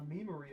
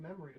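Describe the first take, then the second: First: The first vowel is a long 'ee' sound. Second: The first vowel is a short 'e' sound. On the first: The speaker calls it wrong. "You don't say you have a um, a memory of something" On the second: The speaker calls it right. "You have a memory of something"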